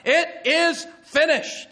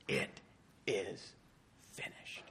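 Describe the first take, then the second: First: High, loud, slow shout; great cry. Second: Very soft, low, spaced words; hushed quote of a shout. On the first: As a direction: cry out each word at full voice. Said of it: "was like this cry". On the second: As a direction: barely voice it, word by word. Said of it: "And now he shouts out". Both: Acted.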